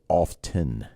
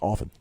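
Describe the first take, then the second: First: The T sound is clearly pronounced. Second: The T sound is almost silent. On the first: The speaker calls it wrong. "you should not pronounce the word often as often" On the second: The speaker calls it right. "the T is almost silent"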